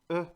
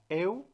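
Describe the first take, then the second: First: It is said as one rounded single vowel. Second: It is said as two vowels, e then u. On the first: This is the French reading. The speaker calls it right. "en francés ya no es eu, sino e" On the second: This is the Spanish reading. The speaker calls it wrong. "en español se pronuncia eu"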